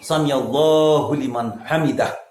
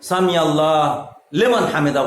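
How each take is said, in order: First: Allah is followed by a final u vowel. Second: Allah ends without a final u vowel. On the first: The speaker calls it right. "এখানে পড়তে হবে কি" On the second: The speaker calls it wrong. "বলা যাবে না"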